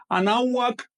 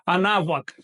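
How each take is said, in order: First: Anáhuac with the hu dropped, said as a-ná-ac; wrong pronunciation. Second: Anáhuac with a clear closed w for the hu; correct pronunciation. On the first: Teacher contrasting the wrong form for students. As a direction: leave out the hu in anáhuac. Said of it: "Así que no es anáhuac". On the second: Teacher giving students the right form after the wrong one. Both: Shown as a demonstration.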